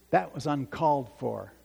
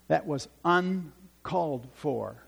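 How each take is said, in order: First: Said in the usual way. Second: "uncalled" pulled apart into un and called, slowly; slow it down, dividing "uncalled" after "un"; deliberate word split. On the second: Retold or imitated. Preacher repeats a thought to dwell on "uncalled", deliberately split.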